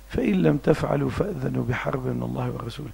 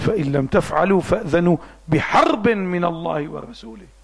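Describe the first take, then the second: First: The verse is recited softly and gently. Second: The verse is recited forcefully and strongly. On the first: The speaker calls it wrong. "قرأها لكن هيك بلطفك" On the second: The speaker calls it right. "حتى يكون إلا وقع في قلب السامع"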